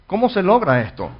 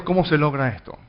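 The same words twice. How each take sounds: First: ¿Cómo se logra esto? asked again higher and louder, pressing on "logra"; emphatic repeat. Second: Said in the usual way. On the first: Shown as a demonstration. Pastor pressing the congregation with the question, emphatic. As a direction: lean into "logra" to drive the question home. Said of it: "repeated for emphasis". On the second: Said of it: "repeats question, stressed".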